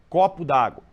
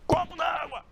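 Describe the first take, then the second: First: It is said in a flat, neutral way. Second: It is said in an irritated, angry way.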